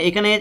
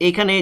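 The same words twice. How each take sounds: The two takes are said the same way.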